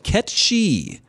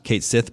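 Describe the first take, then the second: First: It is said as one word, ketchy. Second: It is said as two words, kate sith. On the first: The speaker calls it right. "but Ketchi" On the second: The speaker calls it wrong. "is actually not Kate Sith"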